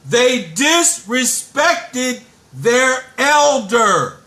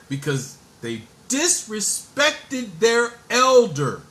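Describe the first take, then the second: First: It is said noticeably louder. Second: It is said at normal volume.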